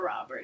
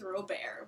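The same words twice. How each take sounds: First: The name is said with English pronunciation. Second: The name is said with French pronunciation. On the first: The speaker calls it wrong. "his name is not Robert" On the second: The speaker calls it right. "it's Robert"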